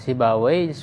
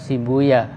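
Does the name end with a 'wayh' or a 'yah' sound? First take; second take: wayh; yah. First: The name ends with a 'wayh' sound. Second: The name ends with a 'yah' sound. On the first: "Jadi bisa dibaca Sibawai" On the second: "bisa juga Sibuya"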